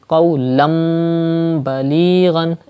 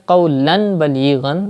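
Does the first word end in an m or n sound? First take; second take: m; n. First: The first word ends in a nasalized m sound. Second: The first word ends in a plain n sound. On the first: The speaker calls it right. "change tanween with meme like qawlam balighan" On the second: The speaker calls it wrong. "Don't read as qawlan balighan"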